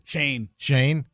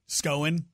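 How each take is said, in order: First: The vowel sounds like the one in 'lane'. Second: The vowel sounds like the one in 'lone'. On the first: The speaker calls it right. "How do you pronounce it? Shane" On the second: The speaker calls it wrong. "What did I say?"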